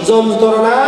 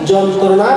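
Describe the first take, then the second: No difference in how they are said.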